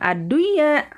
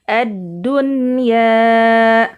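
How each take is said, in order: First: The n is nasalized and merged into y. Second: The n is pronounced clearly without nasal hum. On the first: The speaker calls it wrong. "bukan ad-dunya" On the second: The speaker calls it right. "Ad-dunya dibaca jelas ya"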